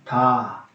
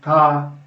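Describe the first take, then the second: First: The soft consonant ends with a breathy h. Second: The consonant is softened and gentle. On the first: "agregando también al final de cada sílaba una gran H" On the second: "convertirlas en"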